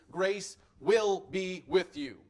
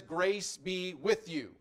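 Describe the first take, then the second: First: "will" pressed slow and louder, a firm promise; stress on will. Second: Said in the usual way. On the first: Shown as a demonstration. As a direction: lean hard on "will", slowly. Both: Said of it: "the emphasis was specifically".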